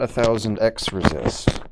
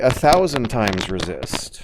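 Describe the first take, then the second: First: The x is spoken as the letter X. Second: The x is spoken as the word times. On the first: The speaker calls it wrong. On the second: The speaker calls it right. "You're supposed to say"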